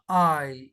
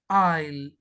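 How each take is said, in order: Both takes have the same delivery.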